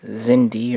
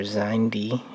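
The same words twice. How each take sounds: First: Xindi as ZIN-dee, short i; first pronunciation. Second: Xindi as ZINE-dee, long i; alternative pronunciation. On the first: Narrator naming the alien fleet, Xindi pronounced ZIN-dee. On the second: Narrator giving what some people call it, Xindi pronounced ZINE-dee. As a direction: say Xindi with a first syllable rhyming with "sign". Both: Shown as a demonstration. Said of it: "as some people call it".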